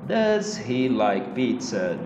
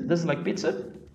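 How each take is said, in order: First: Does and he are said as separate words. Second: Does and he run together as one unit. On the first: The speaker calls it wrong. "se você fala separadinho" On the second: The speaker calls it right. "Vamos colocar foneticamente mais ou menos assim"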